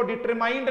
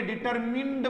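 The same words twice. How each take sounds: First: डिटरमाइंड with a long "eye" vowel before the nd; wrong pronunciation. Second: डिटरमिन्ड with a short "i" before the nd; correct pronunciation. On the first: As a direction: say डिटरमाइंड, third syllable rhyming with "mind". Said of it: "इसको डिटरमाइंड नहीं बोलेंगे". (डिटरमाइंड, 'माइंड' वाला गलत उच्चारण) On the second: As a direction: say डिटरमिन्ड, last syllable "mind" as in "pinned". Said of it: "डिटरमिन्ड बोलेंगे". (डिटरमिन्ड, छोटी 'इ' वाला सही उच्चारण) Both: Shown as a demonstration.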